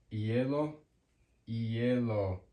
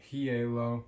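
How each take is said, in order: First: "hielo" as ee-YEH-lo, no h breath; silent H. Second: "hielo" with an English h puffed at the start; wrongly sounded H. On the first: Teacher giving the word for ice, "hielo" with silent H. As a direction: start "hielo" straight on the vowel. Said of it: "it's always silent". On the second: Teacher showing learners the mistake, "hielo" with a sounded H. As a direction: say "hielo" as hee-YEH-lo, h audible. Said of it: "There's no hielo". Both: Shown as a demonstration.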